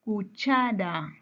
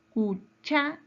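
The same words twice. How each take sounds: First: "Cuchara" drawn out slowly, CHA lengthened; slow, careful "Cuchara" with a long stressed CHA. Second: "Cuchara" broken apart, CHA jumping higher; syllable split, stressed CHA. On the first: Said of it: "Su mayor fuerza de voz". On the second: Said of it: "está en la penúltima sílaba". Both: Shown as a demonstration.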